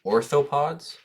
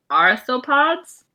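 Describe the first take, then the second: First: Orthopods with an OR start; Orthopods, OR as in door; mispronounced. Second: Arthropods with a hard AR start; arthropods, AR as in car; pronunciation. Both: Real, not acted. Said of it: "No, it starts with an R".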